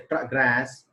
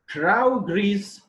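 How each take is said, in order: First: It carries the verb stress pattern. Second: It carries the noun stress pattern. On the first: The word is used as a verb. "is verb" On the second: The word is used as a noun. "this is noun"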